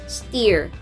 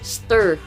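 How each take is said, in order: First: The vowel is a hard long 'ee' sound. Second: The vowel is a short 'er' sound. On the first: The speaker calls it wrong. "yung matigas siya na E" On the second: The speaker calls it right. "Pero ang totoong pronunciation dyan ay stir"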